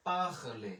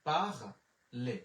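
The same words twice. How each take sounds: First: "পাখলে" said as pakhle, with the final e clearly sounded; French word said clearly. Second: "পাখলে" stretched out very slowly, syllable by syllable; very slow repeat. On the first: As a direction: sound out "পাখলে" as the teacher's model. ("পাখলে" ধীরে স্পষ্ট উচ্চারণ) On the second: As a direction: drag out "পাখলে" so students can copy it. (খুব ধীরে টেনে "পাখলে") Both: Shown as a demonstration. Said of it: "ও এর এর উচ্চারণ হচ্ছে একার".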